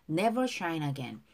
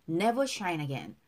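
No difference in how they are said.

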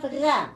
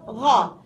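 First: The syllable sounds light, tongue back lowered. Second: The syllable sounds heavy, tongue back raised. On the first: The speaker calls it wrong. "if you lower it, you will have gha" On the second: The speaker calls it right. "If you elevate it, you will have gha"

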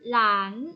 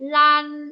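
First: The pitch rises from mid to high. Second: The pitch stays high and level.

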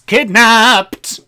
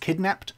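First: The word is said excitedly, like an exclamation. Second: The word is said flatly, without exclamation. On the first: The speaker calls it right. "It's a bit more Broadway" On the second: The speaker calls it wrong. "I don't think you pronounced the exclamation mark"

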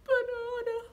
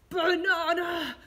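First: It sounds scared. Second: It sounds angry.

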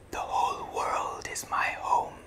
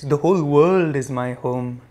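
First: The voice is a whisper. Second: The voice is at normal speaking volume. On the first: "Now in a whisper" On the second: "In a regular voice"

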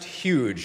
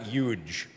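First: The word is said with a plain, standard pronunciation. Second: The word is said with a mocking, imitated pronunciation. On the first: The speaker calls it right. "it's pronounced huge" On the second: The speaker calls it wrong. "not huge"

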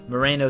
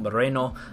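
First: The name is said with an American English accent. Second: The name is said with a Colombian Spanish accent. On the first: "I'm going to butcher it the American way" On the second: "There's my best Colombian accent on this guy's name"

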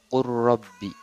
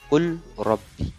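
First: The l merges into a doubled r. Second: The l is pronounced before the r. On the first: "wajib dibaca qur rabbi" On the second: "seperti lafad qul rabbi"

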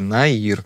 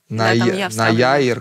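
First: The name has no 'ya' sound in the middle. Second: The name has an extra 'ya' sound in the middle. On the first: This is how the owner says the name. The speaker calls it right. "Я говорю «Наир»" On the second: Someone else misread the name. The speaker calls it wrong. "«Наяир» как-то вот так"

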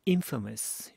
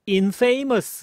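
First: The stress is on the first syllable. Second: The stress is on the second syllable. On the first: The speaker calls it right. "첫 번째 강세 탁 들어가죠?" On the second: The speaker calls it wrong. "infamous 이렇게 발음하는 게 아니다"

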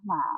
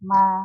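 First: The pitch stays low through the syllable. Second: The pitch stays level throughout the syllable. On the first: "เอก" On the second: "สามัญ"

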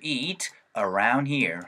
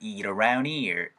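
First: There is a short pause after eat. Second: A soft t links eat smoothly into around. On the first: "eat 하고 쉬어주시고요 around here 일단 이렇게 한번 읽어볼게요" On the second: "T 사운드가 굴려질 수 있습니다. 그러면은 eat 사운드로 붙는 거예요"

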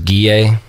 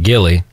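First: The double L is said as a Y sound. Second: The double L is said as an L sound. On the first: This is the name as said in Spanish. "Will in Spanish is Guille, which has the double L" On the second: This is a joking mispronunciation of the name. "a kid in my class thought it'd be funny to start pronouncing it like Gilly"

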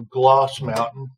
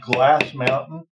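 First: The first word has the vowel of 'gloss'. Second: The first word has the vowel of 'glass'. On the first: "They pronounce it two different ways" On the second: "They pronounce it two different ways"

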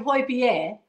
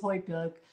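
First: The name is said with a Danish-style pronunciation. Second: The name is said with an anglicized pronunciation. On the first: The speaker calls it right. "that's how you pronounce it" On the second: The speaker calls it wrong. "everybody says Højbjerg"

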